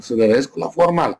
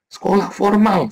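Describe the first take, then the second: First: Said in the usual way. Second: Emphatic "Sekolah formal" with a falling close; stress on formal. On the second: Shown as a demonstration. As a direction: hit "Sekolah formal" hard and slow.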